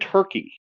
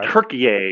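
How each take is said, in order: First: It is said like the English bird name. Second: It is said with a Turkish-style pronunciation. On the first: This is the name Americans use. The speaker calls it wrong. "we call it Turkey as if it's like being served at Thanksgiving" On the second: This is the name the country uses itself. The speaker calls it right. "I think is how they actually pronounce it"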